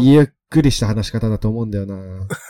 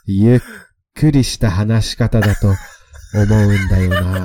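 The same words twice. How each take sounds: First: It is said in a normal, ordinary voice. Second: It is said in a slow, seductive voice.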